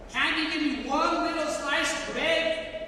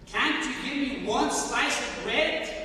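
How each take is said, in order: First: Desperate plea. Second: Begging God for bread, a little raised and rising; pleading prayer. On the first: Starving prisoner begs God again, more desperately. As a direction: pitch lifted higher, pressing on the word one. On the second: Starving prisoner prays to God, pleading. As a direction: ask for one slice of bread as a humble plea. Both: Retold or imitated. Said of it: "I was talking to God within my heart".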